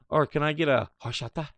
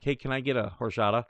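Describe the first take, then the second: First: It is said in a put-on Spanish accent. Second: It is said in a plain American accent.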